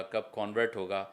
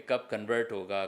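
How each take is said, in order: First: کانورٹ with a full open first vowel, stressed; کانورٹ said "KON-vert"; convert as noun. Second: کنورٹ with a reduced first vowel, stress on the second syllable; کنورٹ said "kun-VERT"; convert as verb. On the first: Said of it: "as a noun convert ہو گیا". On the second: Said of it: "ان کو difference پتہ ہو". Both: Shown as a demonstration.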